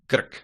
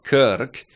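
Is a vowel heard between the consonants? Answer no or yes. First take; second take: no; yes. First: No vowel is inserted between the consonants. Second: A vowel is inserted between the consonants. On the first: The speaker calls it right. "it's krk" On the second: The speaker calls it wrong. "It's not kirk"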